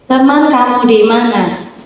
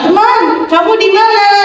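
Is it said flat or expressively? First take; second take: flat; expressively. First: It is said in a flat, level voice. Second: It is said with lively, expressive intonation.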